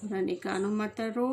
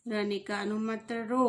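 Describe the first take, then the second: No difference in how they are said.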